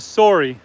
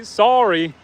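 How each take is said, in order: First: "sorry" with a rounded o, like SORE-ee; contrasting pronunciation. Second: "sorry" with an open ah, like SAR-ee; Canadian variant pronunciation. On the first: Reading a viewer's comment on Canadian speech, "sorry" as SORE-ee. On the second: Reading a viewer's comment on Canadian speech, "sorry" as SAR-ee. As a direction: say "sorry" as sah-ree. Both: Retold or imitated. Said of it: "Some Canadians say sorry instead of sorry".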